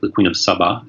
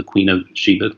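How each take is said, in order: First: The name begins with an 's' sound. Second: The name begins with an 'sh' sound. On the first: This is how the local people say the name. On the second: This is the usual English form of the name.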